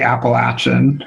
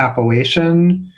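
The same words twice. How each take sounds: First: The A is short, as in Appalachia. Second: The A is long, as in Northern Ohio.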